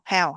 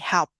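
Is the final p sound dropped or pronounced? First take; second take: dropped; pronounced. First: The word ends without any final p sound. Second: The word ends with a clear final p sound. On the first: The speaker calls it wrong. "most of Vietnamese say how, how, how, and they don't pronounce the ending sound p" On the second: The speaker calls it right. "So that's gonna be help. It not come out like how"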